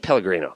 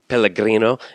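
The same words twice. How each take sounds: First: It is said with a plain English pronunciation. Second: It is said with an exaggerated Italian pronunciation. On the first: The speaker calls it right. "just say Pellegrino" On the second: The speaker calls it wrong. "the person that pronounces the thing"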